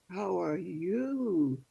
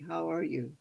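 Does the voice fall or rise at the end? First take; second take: rise; fall. First: The voice rises at the end. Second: The voice does not rise at the end. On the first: It follows the English question habit. "the voice goes up on the end" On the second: It follows the Tlingit way of asking. "and Tlingit would say"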